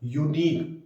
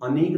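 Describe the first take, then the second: First: The word begins with a 'yoo' sound. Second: The word begins with an 'uh' sound. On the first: The speaker calls it right. "यू, यू, अ की sound नहीं आ रही" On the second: The speaker calls it wrong. "अनीक नहीं बोलते"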